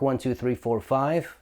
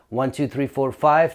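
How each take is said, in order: First: The voice keeps its full low bass. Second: The lowest bass is filtered out of the voice. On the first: "this is what it sounds like when it's off. So low cut is off" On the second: "This is what it sounds like at eighty hertz"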